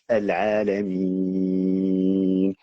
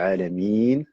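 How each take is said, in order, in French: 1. La voyelle longue se tient sur six temps. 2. La voyelle longue se tient sur deux temps. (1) "six temps" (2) "deux temps"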